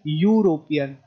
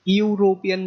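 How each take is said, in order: First: The word begins with a 'yoo' sound. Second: The word begins with an 'eh' vowel sound. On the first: The speaker calls it right. "हम सीधा यू से शुरू कर रहे हैं" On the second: The speaker calls it wrong. "यूरोपियन नहीं कह रहे"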